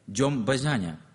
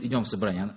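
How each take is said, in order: First: The phrase is pronounced in a garbled, childlike way. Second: The phrase is pronounced fully and clearly. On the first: "она говорит «идем базяня», потому что она так плохо выговаривает" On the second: "она не говорит «идем в собрание»"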